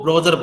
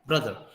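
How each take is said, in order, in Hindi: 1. पहला स्वर पूरे 'oh' जैसा बोला जाता है। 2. पहला स्वर छोटे 'uh' जैसा बोला जाता है। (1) "ओ को जो है ओ की तरह प्रोनाउंस करते हैं" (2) "ये ओ जो है वहां पर आया ही नहीं"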